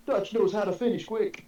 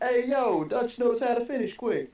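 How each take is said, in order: First: High excited shout; retold scream. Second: Put-on high loud New York accent; hey-yo New York tough guy. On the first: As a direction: yell it like a victory cry. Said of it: "he screamed". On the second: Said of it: "Say in a New York accent".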